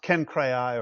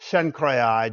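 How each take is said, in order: First: The name begins with a hard K sound. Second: The name begins with a soft sibilant sound. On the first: "a hard C" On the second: "a soft C"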